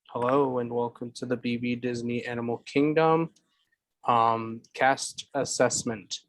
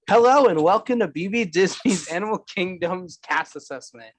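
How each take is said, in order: First: It is said flatly, without enthusiasm. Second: It is said with lively enthusiasm.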